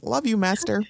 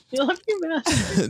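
First: Dreamy devotion. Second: Slower, higher and more swooning; hammed-up dreamy devotion. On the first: Retold or imitated. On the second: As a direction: draw it out like a lovesick minion. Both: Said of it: "picturing Jonathan saying".

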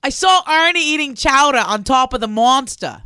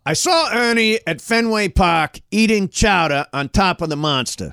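First: Loud Boston accent attempt. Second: Slow, higher Boston accent; Boston accent with attitude. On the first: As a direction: lean into the Boston vowels. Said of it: "you want me to do it". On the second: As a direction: push more attitude into it. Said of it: "give it more attitude". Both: Shown as a demonstration.

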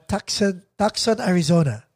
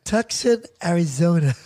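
First: Put-on Filipino-accented "Tucson, Arizona", plain vowels. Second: Put-on American accent. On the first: Caller telling the operator "Tucson, Arizona", unaltered Filipino accent. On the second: Caller trying again with the operator, put-on American accent. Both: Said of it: "Maybe I should put the accent".

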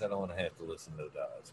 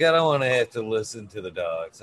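First: Same words, much softer and faster; muttered under breath. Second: Said in the usual way. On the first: Retold or imitated. Telling the visitor about the dogs, muttered fast and soft. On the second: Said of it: "I'm like".

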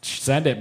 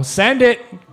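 First: Said in the usual way. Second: Loud hyped shout; frat bro. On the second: Real, not acted. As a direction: pump up the crowd, loud. Cheering giveaway toss.

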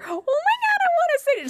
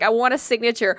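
First: Very high-pitched mock squeal; excited fan squeal. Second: Said in the usual way. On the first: Excited fan, retold squealing take.

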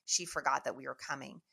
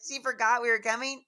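First: Said in the usual way. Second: Loud, high question of disbelief; incredulous echo. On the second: Retold or imitated. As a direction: throw it back as a stunned question, imitating the family. Family echoes it in disbelief.

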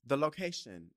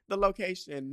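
First: Said in the usual way. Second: Higher, louder, big announcer read; dramatic announcer intro. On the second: Shown as a demonstration. Podcast host restarting the intro as a dramatic announcer. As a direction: announce it like a show opening. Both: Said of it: "no, wait, what am I talking about?".

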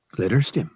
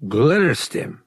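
First: Said in the usual way. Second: Glitterstim? jumps higher and louder in shock; voice scaling up. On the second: Acted. Dealer hearing Han's offer, voice shooting up in surprise. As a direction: blurt Glitterstim? as a startled question. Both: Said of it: "The man's voice scaled up".

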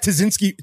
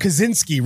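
First: Tazinski said with a T, TAH-zin-ski; Tazinski, garbled start with T; wrong pronunciation. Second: Kaczynski said with a K, kuh-ZIN-ski; Kaczynski, clear K start; corrected pronunciation. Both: Real, not acted.

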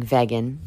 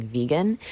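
First: "vegan" said as VEG-an; first syllable of "vegan" like "veg"; imitated pronunciation. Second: "vegan" said as VEE-gan; first syllable of "vegan" like "vee"; common pronunciation. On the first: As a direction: say "vegan" with a short first e, as she does. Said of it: "but she's saying vegan". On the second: Shown as a demonstration. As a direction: say "vegan" with a long ee, rising at the end. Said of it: "of the world is saying vegan".

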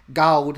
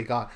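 First: God said louder with his drawn-out vowel; Joel Osteen's God. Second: Said in the usual way. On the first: Retold or imitated. Mimicking the pastor's way of saying God, drawn and loud. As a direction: imitate how he says God, not plainly. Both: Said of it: "he doesn't say God".

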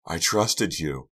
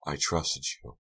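First: TRUSTED drawn out slowly, with more force; stress on TRUSTED. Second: Softer, restrained hurt; quiet reproach. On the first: Delia repeats her accusation, TRUSTED slow and stressed. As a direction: lean long and hard on "trusted". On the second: Delia accuses Karina of betrayal, quiet reproach. First of two hurt repetitions. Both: A narrator's reading.

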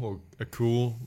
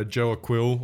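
First: Aquil said "uh-KOOL"; alternate pronunciation. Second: Aquil said "uh-KWILL"; alternate pronunciation. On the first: Offering the other version, Aquil pronounced "uh-KOOL". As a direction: say Aquil like "a cool", no w sound. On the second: Listing a bench player, Aquil pronounced "uh-KWILL". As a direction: say Aquil with a kw, rhyming with will. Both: Shown as a demonstration. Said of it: "however we wanna pronounce it".

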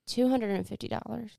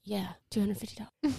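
First: "Two hundred and fifty dollars" as a checking question; questioning repeat. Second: "two hundred fifty dollars" as a settled statement; matter-of-fact confirmation. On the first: Man checks her price, "Two hundred and fifty dollars" said as a question. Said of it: "He says". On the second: Charlie confirms her price, "two hundred fifty dollars" said as a statement. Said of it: "She's like". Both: Retold or imitated.

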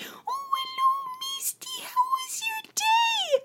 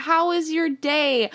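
First: Extremely high, drawn-out squealy greeting; slow, sky-high baby talk to a pet; mom greeting the cat. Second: Higher, slow retelling of mom's question; toned-down, drawn-out pet question; mom's question retold. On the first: Retold or imitated. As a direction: imitate a mom cooing at her cat. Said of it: "So when my mom comes home". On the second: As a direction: lightly imitate a mom asking a cat. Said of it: "she asked my cat".

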